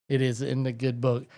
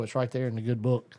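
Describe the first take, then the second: First: Insist: "It is" in the good book, not it's; stress on IS. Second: Said in the usual way. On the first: Real, not acted. Host repeats to the audience, insisting on "It is". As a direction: lean hard on "It is", then the rest runs on.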